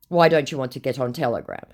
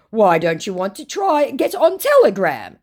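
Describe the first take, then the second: First: Said in the usual way. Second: High, pushy put-on voice; mock scammer voice. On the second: Woman reading the scammer's Telegram plea, in a high mock voice. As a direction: needle her like the scammer.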